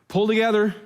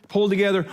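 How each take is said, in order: The two takes are said the same way.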